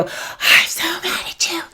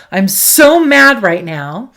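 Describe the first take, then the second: First: High, strained whispered yell; mock yelling. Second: Loud, drawn-out stress on "so"; venting anger. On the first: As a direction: yell at someone without full voice. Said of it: "And I'm yelling at you". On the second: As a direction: let the anger out without aiming it. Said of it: "let's say I wanna yell". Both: Shown as a demonstration.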